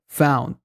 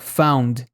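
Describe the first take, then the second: First: The final d is formed but not released. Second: The final d is fully released and audible. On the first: The speaker calls it right. "fica found" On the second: The speaker calls it wrong. "não fala found"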